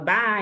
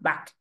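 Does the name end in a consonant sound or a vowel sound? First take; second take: vowel; consonant. First: The word ends with an open vowel sound. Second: The word ends with a hissing consonant sound. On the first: This is how the name is said in Brazil. "aqui no Brasil a gente fala bar" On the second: This is the original pronunciation of the name. "A pronúncia é Bat, como se tivesse um ... T C H ... no final"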